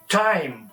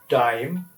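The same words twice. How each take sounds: First: The t sound at the start is strong. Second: The t sound at the start is soft. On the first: The speaker calls it right. "but time, table" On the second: The speaker calls it wrong. "not time"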